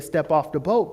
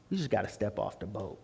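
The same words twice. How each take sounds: First: Said in the usual way. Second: Low, very soft counsel; quiet advice. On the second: Retold or imitated. Friend advises him to take the leap, quietly. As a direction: drop it down and say it gently.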